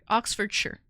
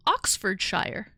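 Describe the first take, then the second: First: Oxfordshire with a reduced "shur" ending, r sounded; corrected to shur. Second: Oxfordshire with a full "shire" ending, rhyming with fire. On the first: Shown as a demonstration. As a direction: correct the end of Oxfordshire to a short "sher". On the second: Real, not acted. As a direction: say the end of Oxfordshire like "shy-er". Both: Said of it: "Sorry, Oxfordshire".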